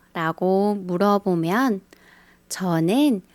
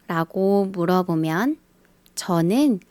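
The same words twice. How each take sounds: The two takes are said the same way.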